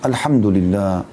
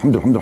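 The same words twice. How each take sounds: First: It is said slowly and calmly. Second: It is said fast and mumbled. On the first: The words are said with humility and reflection. The speaker calls it right. "Renungi maknanya" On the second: The words are rushed without reflection. The speaker calls it wrong. "Bukan kayak orang kumur-kumur"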